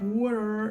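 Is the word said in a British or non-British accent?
non-British. It is said in a non-British accent.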